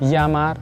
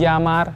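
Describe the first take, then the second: No difference in how they are said.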